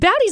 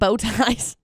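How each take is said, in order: First: It is said like 'bowdies', with a D sound. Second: It is said as 'bow ties', with a T sound. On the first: The speaker thought it was a different word. The speaker calls it wrong. "is what she always pronounced it as" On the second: It names the bow-tie shape. The speaker calls it right. "that's what they are"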